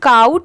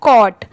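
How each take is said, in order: First: The vowel sounds like 'ow' in cow. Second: The vowel sounds like 'aw' in saw. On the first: The speaker calls it wrong. "इसे काउट नहीं पढ़ेंगे, बहुत सारे लोग इसे गलत भी प्रोनाउंस करते हैं" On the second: The speaker calls it right. "इसकी प्रोनाउंसिएशन क्या है कॉट"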